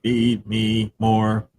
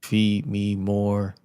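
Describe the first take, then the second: First: Very slow robotic echo; toy robot voice. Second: Very slow robotic drone; toy robot voice. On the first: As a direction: drag it out like a robot. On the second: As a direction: stretch each word like a machine. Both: Pretend. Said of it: "I am a robot".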